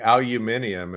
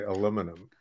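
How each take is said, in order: First: It is said the British way, five syllables. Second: It is said the American way, four syllables. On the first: This is how the other group says it. "you guys say aluminium" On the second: This is how the speaker's own group says it. "we say aluminum"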